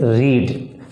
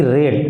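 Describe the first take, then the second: First: "read" said like "reed"; wrong pronunciation. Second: "read" said like "red"; past-tense pronunciation. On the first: Teacher showing students what to avoid, "read" as "reed". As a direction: say "read" with a long ee, as in the present tense. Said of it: "not we have to, uh, pronounce it". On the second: Teacher showing students how the past form sounds, "read" as "red". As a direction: say "read" with a short e, rhyming with bed. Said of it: "This pronunciation will be read". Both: Shown as a demonstration.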